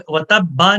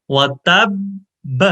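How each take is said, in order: First: وَتَبَّ run on with a vowel after the ba; the wrong way. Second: وَتَبَّ said slowly, both ba sakin with a stop; وَتَبَّ with doubled ba held and stopped; correct recitation. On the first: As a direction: show the error: وَتَبَّ flowing into the next word. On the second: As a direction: say وَتَبَّ slowly, ending on a still ba. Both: Shown as a demonstration. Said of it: "وَتَبَّ نہیں پڑھنا".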